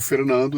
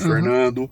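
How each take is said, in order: First: The R is said with a São Paulo city accent. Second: The R is said with a countryside caipira accent. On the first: This is how he talks in recordings. "eu falo R paulistano aqui" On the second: This is how he naturally talks day to day. "meu jeito de falar é porta, porco, Fernando"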